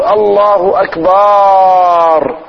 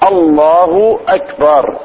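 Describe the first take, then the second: First: A vowel is drawn out long. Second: The vowels are kept short. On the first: The speaker calls it wrong. "يمدها، هذا بعد خطأ" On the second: The speaker calls it right. "لابد من مراعاة الدقة في النطق"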